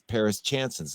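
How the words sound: The name is said with a flat American accent. The speaker calls it wrong. "If I would say it like somebody in Nebraska would read it"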